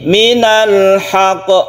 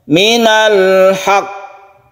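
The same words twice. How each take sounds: First: The final q is released at once, not doubled. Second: The final q is pressed and held before release. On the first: The speaker calls it wrong. "Kalau tanpa tasydid ini perbedaannya seperti ini" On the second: The speaker calls it right. "Jadi yang betul yang kedua tadi ya"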